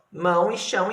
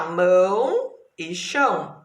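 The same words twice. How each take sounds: First: Said in the usual way. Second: "mão e chão" slowly, each word one long unbroken sound; single stretched syllables. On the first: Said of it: "Essas palavras aqui". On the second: Shown as a demonstration. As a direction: draw out "mão" and "chão" without splitting. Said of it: "tem uma única sílaba". ("mão e chão" alongado, cada palavra inteira)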